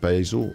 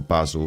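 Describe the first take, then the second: First: It is said with an American pronunciation. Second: It is said with a British pronunciation.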